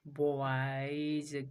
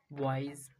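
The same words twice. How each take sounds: First: बॉयज stretched slowly through the vowel to z; drawn-out demo. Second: Said in the usual way. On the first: Shown as a demonstration. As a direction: draw out बॉयज to show the z ending. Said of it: "किस पे ध्यान देना है". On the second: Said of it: "जौ पे".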